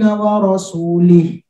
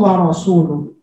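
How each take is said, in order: First: The vowel before the final h is i. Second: The vowel before the final h is u. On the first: God rejects the idolaters and the Messenger. The speaker calls it wrong. "Ada orang baca Quran ... Seharusnya lu dibaca lih" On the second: The Messenger also rejects the idolaters. The speaker calls it right. "Seharusnya bacanya wa rasuluh"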